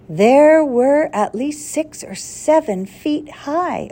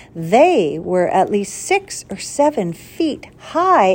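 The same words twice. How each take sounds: First: "There" said where "They" was meant, read on smoothly; misread first word. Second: Said in the usual way. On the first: Shown as a demonstration. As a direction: stumble on "There" in place of "They". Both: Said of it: "Oh, s-, excuse me".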